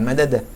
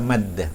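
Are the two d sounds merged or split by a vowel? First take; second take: split; merged. First: A vowel separates the two d sounds. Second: The two d sounds merge into one doubled d. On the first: The speaker calls it wrong. "bukan madadah" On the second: The speaker calls it right. "Maka yang benar adalah maddah"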